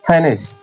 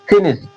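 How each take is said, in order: First: The first vowel is an 'ai' glide. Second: The first vowel is a short 'i' sound. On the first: This is the purest form. "शुद्धता इसका होता है फाइनिश" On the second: This is how people commonly say it. "इसे बोल देते हैं ना फिनिश"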